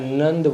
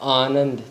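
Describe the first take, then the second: First: The opening 'a' syllable is dropped entirely. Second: The opening 'a' syllable is fully pronounced. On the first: "आ को मैं अंदर ही समेट के नंद अकेला बोलता था" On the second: "मेरा नाम लूँ आनंद"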